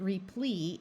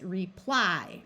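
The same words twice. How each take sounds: First: "replee" ending in a long E; slow "replee", Y read as ee; wrong final vowel. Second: "reply" slowly, ending in a long I; slow "reply", Y sounded as eye; long I, accented. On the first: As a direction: say "replee" slowly, rhyming with tree. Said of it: "long I sound if it's accented". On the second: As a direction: lean on the ply of "reply". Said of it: "because the ply is accented". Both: Shown as a demonstration.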